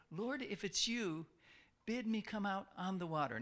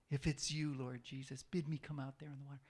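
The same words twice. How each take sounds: First: Said in the usual way. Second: Mock arrogant Peter. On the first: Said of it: "they heard Peter say". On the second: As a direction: dismiss it as pretentious. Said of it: "What an arrogant thing to say".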